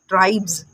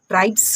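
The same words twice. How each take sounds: First: The final sound is a buzzing z. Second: The final sound is a hissing s. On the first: The speaker calls it right. "इसको आप स ना पढ़ के आपको इसको पढ़ना है ज" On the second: The speaker calls it wrong. "नहीं"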